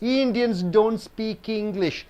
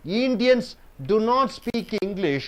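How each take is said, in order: First: Do and not merge into one syllable. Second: The words do and not are said separately.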